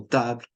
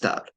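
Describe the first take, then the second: First: Table said the French way, ta-bl; French pronunciation. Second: Table again the French way, ta-bl; French pronunciation repeated. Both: Shown as a demonstration. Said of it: "is pronounced table".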